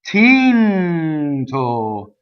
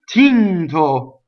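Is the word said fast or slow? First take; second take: slow; fast. First: The word is said slowly. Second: The word is said quickly. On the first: "That's slow motion" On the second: "When you do it fast"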